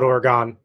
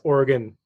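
First: It is pronounced the way outsiders say it. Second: It is pronounced the way locals say it. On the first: The speaker calls it wrong. "not Oregon" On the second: The speaker calls it right. "If you are from Oregon, they pronounce it as Oregon"

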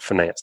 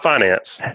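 First: It is said in the standard business-school way. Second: It is said the South Alabama way. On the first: The speaker calls it right. "it's very important that you use the word finance" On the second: The speaker calls it wrong. "not finance, like we say in South Alabama"

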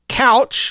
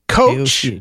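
First: The name sounds like couch. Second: The name sounds like coach. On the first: "like a piece of furniture" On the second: "like a person who leads a basketball team"

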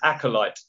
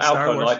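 First: The word begins with an 'ack' sound. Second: The word begins with an 'alk' sound. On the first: The speaker calls it right. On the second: The speaker calls it wrong. "Not Alkalite. You obviously need a drink if you've gone Alkalite"

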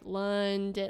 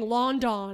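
First: The first syllable sounds like 'lun'. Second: The first syllable sounds like 'lawn'. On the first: "like maybe you think that was like a U" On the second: "But like pronounced it like lawn"

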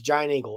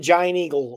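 First: It is said in a local Pittsburgh accent. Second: Each word is pronounced carefully and clearly. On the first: The speaker calls it right. "because if you're from here, like I am, it's Giant Eagle" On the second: The speaker calls it wrong. "I shouldn't even enunciate it"

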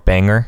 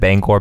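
First: The second syllable is a reduced 'ger' sound. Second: The second syllable has a full 'gor' vowel. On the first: Only some people say it this way. "some people say" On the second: This is the usual way to say it. "instead of Bangor"

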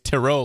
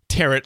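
First: The word does not rhyme with carrot. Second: The word rhymes with carrot. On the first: "tarot like you said" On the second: "tarot like carrot"

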